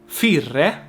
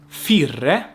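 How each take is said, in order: Both takes have the same delivery.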